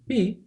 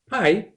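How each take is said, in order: First: The vowel is a long 'ee' sound. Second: The vowel is an 'eye' sound. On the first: This is the Greek pronunciation of the letter. "Its correct pronunciation is P" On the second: This is how the letter is said in math. "in math we call it pi"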